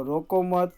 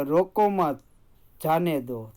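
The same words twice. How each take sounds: First: "रोको मत" with a clear stop after "मत"; pause after मत. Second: "रोको मत" then a clear pause before "जाने दो"; pause after मत. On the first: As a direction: hold a short break right after the word "मत". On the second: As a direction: stop briefly after the word "मत" before "जाने दो". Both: Shown as a demonstration. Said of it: "मत शब्द के बाद हम थोड़ा रुकते हैं".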